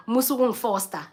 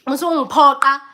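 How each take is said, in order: First: Said in the usual way. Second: Louder firm don't force me; retold protest. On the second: Guest refusing hosts, voice raised firmly. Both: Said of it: "That's what I wanted to say".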